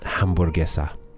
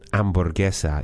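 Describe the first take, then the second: First: The word starts with an h sound. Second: The word starts without an h sound. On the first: The speaker calls it wrong. "What if I accidentally said hamburguesa?" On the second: The speaker calls it right. "It sounds like you skipped the H and went straight to the A"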